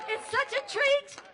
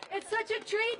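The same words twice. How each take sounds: First: Bright excited exclamation; excited gush. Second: Said in the usual way. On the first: Real, not acted. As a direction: gush about the treat. Host gushes before performance.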